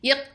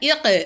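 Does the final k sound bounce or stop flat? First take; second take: flat; bouncing. First: The final k stops flat with no bounce. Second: The final k is released with a bounce. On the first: The speaker calls it wrong. "இக் அப்படி சொல்லாமல்" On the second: The speaker calls it right. "காஃபை அசைச்சு சொல்லணும்"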